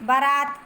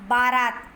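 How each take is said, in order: First: बारात with a short first vowel, "buh-raat"; बारात misspoken as "baraat"; incorrect form. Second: बारात with a long first "baa"; बारात pronounced "baa-raat"; correct form. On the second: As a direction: lengthen the opening vowel of बारात. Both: Shown as a demonstration. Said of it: "तो शुद्ध रूप होगा".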